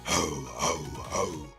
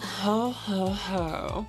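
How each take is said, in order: First: It is said in a villainous Doctor Claw voice. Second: It is said in an unconvincing plain voice.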